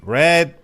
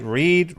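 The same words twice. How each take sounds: First: "read" said RED, higher and louder; past tense. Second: "read" said REED, higher; present tense. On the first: Co-host showing English spelling, RED. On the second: Co-host showing English spelling, REED. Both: Shown as a demonstration. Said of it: "You write, read, read".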